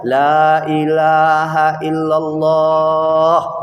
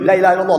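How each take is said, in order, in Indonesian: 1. Frasa itu diucapkan dengan cara yang tenang dan lembut. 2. Frasa itu diucapkan dengan cara yang keras dan memaksa. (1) "Elok-elok aja" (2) "Enggak macam itu dah"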